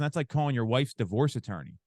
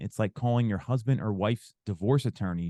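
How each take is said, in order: First: A raised, confrontational voice. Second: A lowered, empathetic voice.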